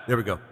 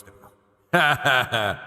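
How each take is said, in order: First: Said in the usual way. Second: Slow, processed god voice effect; Yahweh voice. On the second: Shown as a demonstration. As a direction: voice filter like a divine being. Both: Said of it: "Yahweh voice".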